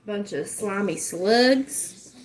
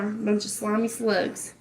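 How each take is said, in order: First: Drawn out, every word stretched; slow preachy insult. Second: Said in the usual way. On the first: Shown as a demonstration. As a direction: spit it out slowly like a sermon. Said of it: "I could get on here and preach about it". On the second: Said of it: "That's what they are".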